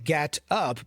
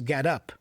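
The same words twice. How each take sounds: First: The two words are said separately. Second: The two words are linked into one unit.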